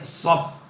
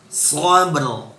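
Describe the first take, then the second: First: The word ends without any r sound. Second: The word ends with a clear r sound. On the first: The speaker calls it wrong. "tidak boleh sob" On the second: The speaker calls it right. "harus dibaca sabr"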